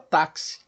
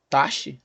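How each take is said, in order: First: The x is said as a 'ks' sound. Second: The x is said as a single 'sh' sound. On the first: The speaker calls it right. "esse K S representado pela letra X aqui, ele vai aparecer em outras situações" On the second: The speaker calls it wrong. "Taxi? Não"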